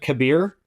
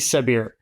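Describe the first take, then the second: First: The name begins with a hard K sound. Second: The name begins with a soft S sound. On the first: "I kind of like the sound of Kabir" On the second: "but it could be Sabir"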